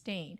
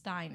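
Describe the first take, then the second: First: The last syllable rhymes with 'main'. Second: The last syllable rhymes with 'mine'. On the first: The speaker calls it wrong. "It's not pronounced Stain" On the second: The speaker calls it right. "it's pronounced Stein"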